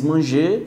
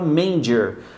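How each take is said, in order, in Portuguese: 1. A palavra é pronunciada do jeito francês. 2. A palavra é pronunciada do jeito inglês. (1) "essa mesma palavra do francês" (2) "só que você fala manger"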